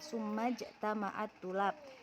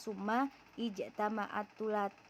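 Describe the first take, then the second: First: The verb's opening vowel is dropped and linked. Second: The verb's opening vowel is pronounced separately. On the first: The speaker calls it right. "Jadi bacaannya summa jtama'ah" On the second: The speaker calls it wrong. "Tidak dibaca"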